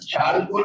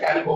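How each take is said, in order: First: The word begins with a ch sound. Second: The word begins with a k sound. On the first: The speaker calls it wrong. "चाल्को नहीं बोलते" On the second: The speaker calls it right. "कैल्को बोलते हैं"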